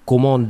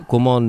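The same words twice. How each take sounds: The two takes are said the same way.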